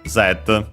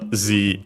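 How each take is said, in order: First: The letter is said with a non-American pronunciation. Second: The letter is said with an American pronunciation. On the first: The speaker calls it right. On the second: The speaker calls it wrong.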